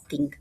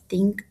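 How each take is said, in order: First: The word begins with a hard 't' sound. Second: The word begins with a soft 'th' sound.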